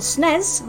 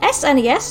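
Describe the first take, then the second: First: The name is said as a single word. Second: The name is spelled out letter by letter.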